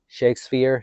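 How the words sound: It is said with a Spanish accent.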